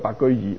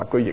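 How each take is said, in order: First: 易 is read with its 'easy' sound. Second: 易 is read with its 'trade' sound. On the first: The name means living at ease and plainly. The speaker calls it right. "係咪應該讀作呢個白居易？" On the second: The name would suggest doing business and trade. The speaker calls it wrong. "唔係做個白居易啊"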